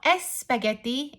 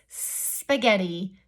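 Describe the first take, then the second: First: An extra vowel sound comes before the s. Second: The word starts directly with the s sound. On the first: The speaker calls it wrong. "it's not S spaghetti" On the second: The speaker calls it right. "it's spaghetti"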